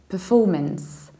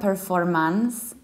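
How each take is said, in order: First: The syllable 'for' is stressed; the beginning is reduced. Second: The syllable 'for' is not the stressed one. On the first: The speaker calls it right. "we reduce the very beginning, ... then we stress for" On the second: The speaker calls it wrong. "It's not performance"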